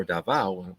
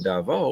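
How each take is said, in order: First: Davao said "dah-VOW"; last syllable of Davao rhymes with "now"; Davao ending in "ow". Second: Davao said "dah-VOH"; last syllable of Davao rhymes with "go"; Davao ending in "oh". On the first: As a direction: say Davao with a final ow sound. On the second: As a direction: say Davao with a final oh sound. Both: Shown as a demonstration. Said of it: "or Davao, however you say it".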